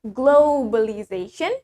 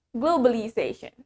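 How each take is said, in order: First: Slow "globalization" with a drawn-out "glow" and W glide; British-style "globalization", long rounded first vowel. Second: "Globalization" with a short plain O, no W glide; American-style "Globalization", falling at the end. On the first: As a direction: stretch the O of "globalization" into "oh-w". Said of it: "In British". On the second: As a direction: say "Globalization" with a quick "glo". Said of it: "in America, we say it". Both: Shown as a demonstration.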